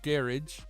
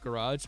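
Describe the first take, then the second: First: It is said with a British pronunciation. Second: It is said with an American pronunciation. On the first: "and then garage, I think, uh, is U K" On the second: "garage in the U S is garage"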